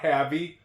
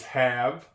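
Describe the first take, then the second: First: The final E is sounded, adding a second syllable. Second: The final E is silent, leaving one syllable. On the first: The speaker calls it wrong. "It's not havey" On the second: The speaker calls it right. "It's have"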